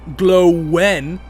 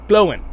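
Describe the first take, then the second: First: The vowels are joined by a W glide. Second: The vowels are kept apart without a W glide. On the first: The speaker calls it wrong. "Not glow glowin" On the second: The speaker calls it right. "you don't say the W"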